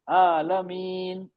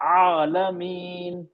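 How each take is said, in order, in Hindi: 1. यह सादे glottal stop से शुरू होता है। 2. यह गले के बीच से निकली कसी हुई आवाज़ से शुरू होता है। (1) "आइन हमजा हो गया" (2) "जबकि ये आलमीन"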